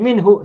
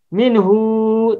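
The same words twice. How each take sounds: First: The final vowel is kept short. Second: The final vowel is drawn out long. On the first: The speaker calls it right. "tapi minhu saja" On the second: The speaker calls it wrong. "tak boleh dibaca panjang, tak boleh minhu"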